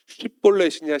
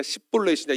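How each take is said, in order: First: 시볼렛이냐 begun as "shwib", with a hushed sh; shibboleth pronunciation. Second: 시볼렛이냐 begun as "sib", lips unrounded; sibboleth pronunciation. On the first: Preacher contrasting two pronunciations for the congregation, shibboleth with sh. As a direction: say 시볼렛이냐 opening with a rounded "shwi" sound. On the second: Preacher contrasting two pronunciations for the congregation, sibboleth without rounding. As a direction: say 시볼렛이냐 opening with a plain "sib" sound. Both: Shown as a demonstration. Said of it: "이 두 가지를 가지고".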